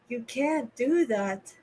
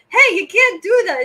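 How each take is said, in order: First: It is said in a flat, boring way. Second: It is said with lively, animated emphasis.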